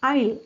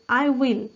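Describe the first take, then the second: First: The two words merge into one syllable. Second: The two words are said separately in full.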